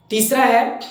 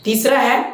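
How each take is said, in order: Both takes have the same delivery.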